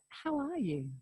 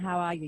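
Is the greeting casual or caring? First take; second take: caring; casual. First: It is said as a slow, caring question. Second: It is said as a quick, casual greeting.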